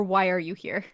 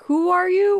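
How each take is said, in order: First: "Why" as the other option, at usual pitch; offering the alternative WHY. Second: "Who" high and loud, rising through the phrase; raised, questioning stress on "Who"; checking the word WHO. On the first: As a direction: set "Why" against the first guess. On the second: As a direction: punch out "Who" to check what was heard. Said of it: "did she say". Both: Shown as a demonstration.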